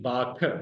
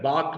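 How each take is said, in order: First: The final consonant is followed by a short vowel. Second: The word ends on a bare final consonant. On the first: The speaker calls it right. "Sindhi का उसूल है आखिरी हर्फ पर हरकत आएगी।" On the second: The speaker calls it wrong. "बाक नहीं।"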